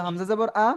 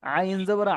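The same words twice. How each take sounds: First: Said in the usual way. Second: আইন জবর আ with the আ squeezed from the throat; tight-throated আ after আইন; pressed throat. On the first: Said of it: "স্বাভাবিক আওয়াজে হচ্ছে". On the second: Shown as a demonstration. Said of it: "একটা গলা চেপে হচ্ছে".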